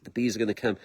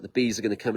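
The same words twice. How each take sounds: First: Low, soft knowing murmur; hushed certainty. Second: Quiet certainty. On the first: Hearing bees in the tree, murmuring the bees are coming. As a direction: say it softly, as a quiet promise. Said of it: "I'm like". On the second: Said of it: "I was like". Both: Retold or imitated.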